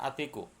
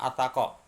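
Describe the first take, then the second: First: The vowel after the t is 'i'. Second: The vowel after the t is 'a'. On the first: The speaker calls it right. "seharusnya atiku" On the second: The speaker calls it wrong. "dibaca atako"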